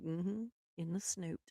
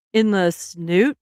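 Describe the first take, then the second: First: Very soft, understated retold reply; quiet confirmation. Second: Slow, incredulous repeat with a rising end; questioning echo. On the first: Woman confirms her silly word to her husband, very quiet matter-of-fact reply. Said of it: "I'm like". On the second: Retold or imitated. Husband queries her odd word for nose, slow questioning echo. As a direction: imitate him querying the words, drawn out. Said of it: "He was like".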